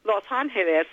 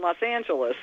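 First: The name is said with Spanish pronunciation. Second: The name is said with English pronunciation. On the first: The speaker calls it right. "they sound so much nicer that way" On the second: The speaker calls it wrong. "much more than"

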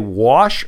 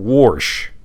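First: The word is said without an r sound. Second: The word is said with an r sound. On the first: "Do you say wash" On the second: "Some people say warsh"

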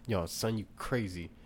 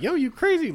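First: It is said in a fairly mild tone. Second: It is said in a disrespectful, mocking tone.

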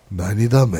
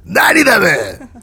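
First: It is said in a calm, quiet tone. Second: It is said in a rough, harsh tone.

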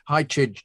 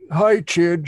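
First: It is said in his normal voice. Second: It is said in a silly put-on voice.

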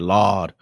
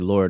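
First: It is said as an exasperated, drawn-out 'Lawd'. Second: It is said plainly, like the normal word.

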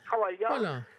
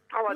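First: The middle consonant is an L sound. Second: The middle consonant is a D sound.

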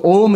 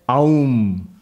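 First: The vowels merge into a single o sound. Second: The vowels are said separately, as a-u. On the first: The speaker calls it right. "So Om is the correct pronunciation" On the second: The speaker calls it wrong. "don't pronounce it as Aum. I saw somebody pronouncing it. That's not correct"

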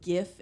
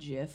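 First: The word starts with a hard G sound. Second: The word starts with a J sound. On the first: The speaker calls it right. "it is GIF" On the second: The speaker calls it wrong. "and not JIF"

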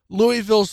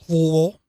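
First: The name is said in a general American way. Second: The name is said the local Louisville way.

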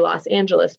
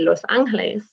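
First: It is pronounced the English way. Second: It is pronounced the Spanish way. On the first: "because we are native English speakers" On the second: "if we were to say it the right way"

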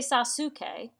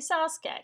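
First: The middle u vowel is fully pronounced. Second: The middle u vowel is dropped. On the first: The speaker calls it wrong. "You don't say Sasuke" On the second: The speaker calls it right. "you say Sasuke. Sometimes they just ditch some of the syllables"

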